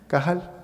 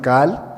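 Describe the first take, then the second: First: The middle throat consonant is clearly pronounced. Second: The middle throat consonant is left out. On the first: "en hebreo es la palabra kahal" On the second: "porque es difícil de pronunciar esa letra"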